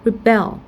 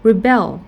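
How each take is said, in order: No difference in how they are said.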